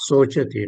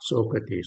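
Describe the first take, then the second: First: The middle consonant is a 'ch' sound. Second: The middle consonant is a 'k' sound. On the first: The speaker calls it right. "This one is uh, Sochati" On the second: The speaker calls it wrong. "not Sokati"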